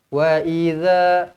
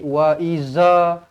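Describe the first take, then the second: First: The consonant is a soft 'dh' with the tongue out. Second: The consonant is a buzzing 'z' sound. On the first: The speaker calls it right. "Bila kita keluarkan lidah, dia akan lembut" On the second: The speaker calls it wrong. "dia tak akan jadi wa iza ... salah"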